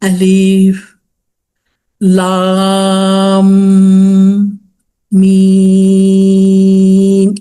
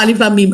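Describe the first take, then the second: First: The vowel in 'laam' is drawn out long. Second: The vowel in 'laam' is kept short and plain. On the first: The speaker calls it right. "அப்படி சொல்லணும். இதா லாம் கருது இழுக்கணும்" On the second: The speaker calls it wrong. "சும்மா அலிஃப் லாம் மீம் அப்படி சொல்லக்கூடாது"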